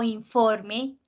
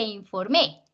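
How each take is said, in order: First: "informe" con fuerza en FOR; acento en la penúltima. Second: "informé" con fuerza en MÉ; acento en la última. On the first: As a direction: carga la sílaba FOR de "informe". ("informe" como palabra grave, in-FOR-me) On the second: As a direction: carga la sílaba final de "informé". ("informé" como aguda, in-for-MÉ) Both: Shown as a demonstration. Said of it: "no es lo mismo".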